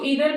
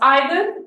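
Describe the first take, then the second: First: The word starts with an 'ee' sound. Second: The word starts with an 'eye' sound.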